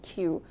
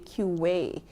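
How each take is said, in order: First: The word is said as one syllable. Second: The word is said with an extra syllable.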